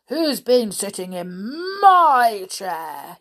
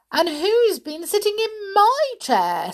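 First: Loud, slow bear growl with a drawn-out MY; angry father bear. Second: High, loud indignant mother bear. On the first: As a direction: boom it out like a cross bear. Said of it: "gave an angry growl". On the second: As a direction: pitch it up high for a put-out mama bear. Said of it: "said the mother bear". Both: A narrator's reading.

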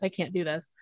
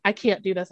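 First: Mock sob. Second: Said in the usual way. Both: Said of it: "sobbing 'cause she was like".

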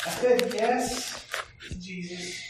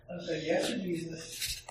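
First: Slow, louder "I said yes", every word weighted; emphatic declaration. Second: Said in the usual way. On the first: Shown as a demonstration. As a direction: proclaim it slowly, leaning on "said".

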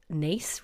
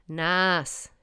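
First: "Naas" rhyming with "face"; Irish pronunciation. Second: "Naas" as written, with a drawn-out a, "nass"; tourist's pronunciation. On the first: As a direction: say "Naas" as NACE. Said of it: "have you seen Naas written". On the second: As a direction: misread "Naas" slowly with an open a. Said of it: "I'm a tourist". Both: Shown as a demonstration.

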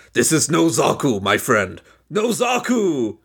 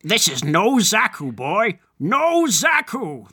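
First: Hammed-up villain catchphrase, last words drawn out; slow, theatrical declaration with a drawn-out finish; Ramba Ralph. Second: Slow, deliberate line, the repeat rising and stretched; imitated character catchphrase. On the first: Host performing the famous meme line, hammed-up character voice. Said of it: "that's my Ramba Ralph voice now". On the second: Co-host taking a turn at the meme line, slow hammed-up imitation. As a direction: draw out the final words theatrically. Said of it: "That's how he says it".

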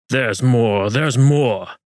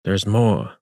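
First: Sing-song mocking echo, a bit louder; mocking imitation. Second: Said in the usual way. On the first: A narrator's reading. Almagro mocking Juan's words, mocking echo. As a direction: mimic him to ridicule him. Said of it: "Almagro mocked". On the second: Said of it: "said Juan".

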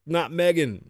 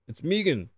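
First: "Megan" with a short e, MEG-an; Megan said wrong. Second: "Megan" with a long ee, MEE-gan; Megan said right. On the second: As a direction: say "Megan" as MEE-gun, the name corrected. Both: Shown as a demonstration.

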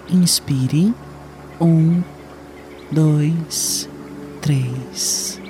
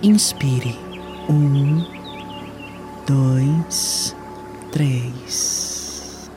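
No difference in how they are said.

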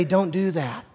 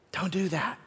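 First: Said in the usual way. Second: Hushed, gentle warning; soft warning. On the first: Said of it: "He wants to say". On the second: Pretend. God whispering a warning to a struggling listener, hushed. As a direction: say it softly, like a quiet caution. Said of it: "wants to whisper warnings to you".

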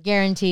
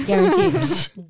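First: Said in the usual way. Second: Guaranteed stretched slow and high; Guaranteed drawn out slowly with a high start; emphatic guaranteed. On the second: Real, not acted. Teasing her cohost, drawing out Guaranteed emphatically.

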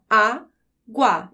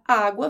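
First: "água" split slowly into á, pause, guá; syllable by syllable. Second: Said in the usual way. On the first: Shown as a demonstration. Teacher divides a word for students, "água" as two slow separate syllables. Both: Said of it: "Quando você vai dividir as sílabas".

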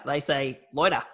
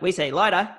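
First: "loiter" for lighter, with an "oy" vowel; other region's pronunciation of lighter. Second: "lighter" said the local way, with a plain "eye" vowel; higher-pitched "lighter", pronounced with an "eye" vowel; local pronunciation of lighter. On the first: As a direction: mimic their "lighter" as "loiter". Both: Retold or imitated. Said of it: "they're pronounced lighter differently".

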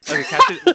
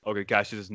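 First: Put-on high, laughing girly voice; girl's voice. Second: Said in the usual way. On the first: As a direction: squeak it out like a girl. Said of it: "why are you giving me a girl's voice".

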